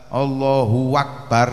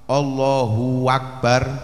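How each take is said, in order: Both takes have the same delivery.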